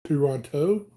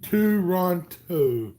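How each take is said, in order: First: "Toronto" with a rising question at the end. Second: "Toronto" drawn out slowly as "too-RON-toh"; sounded out. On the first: Streamer checking the city's name, "Toronto" as a question. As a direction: lift the last syllable of "Toronto". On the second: Streamer trying out the city's name, "Toronto" slowly sounded out. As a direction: stretch each syllable of "Toronto" slowly. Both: Shown as a demonstration.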